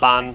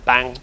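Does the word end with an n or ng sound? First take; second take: n; ng. First: The word ends with a plain n sound. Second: The word ends with an ng sound. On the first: The speaker calls it wrong. "It's not ban" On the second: The speaker calls it right. "It's bang"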